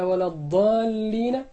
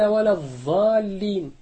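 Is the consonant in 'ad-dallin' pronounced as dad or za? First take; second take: dad; za. First: The word is said with the dad sound. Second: The word is said with the za sound. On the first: It means those who have gone astray. The speaker calls it right. "بدلا من أن يقول ولا الضالين" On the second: It means those who remain doing something. The speaker calls it wrong. "قال ولا الضالين"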